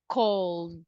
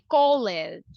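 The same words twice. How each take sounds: First: The ending is a voiced d sound. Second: The ending is not a plain d sound. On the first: The speaker calls it right. "we say cold. ... the ed will be pronounced as the" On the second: The speaker calls it wrong. "We don't say cold"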